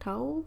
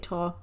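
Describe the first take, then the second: First: The vowel sounds like the one in 'cow'. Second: The vowel sounds like the one in 'saw'. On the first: This is how others pronounce it. "So I think they say Tao" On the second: This is how the speaker has always pronounced it. "I say Taw"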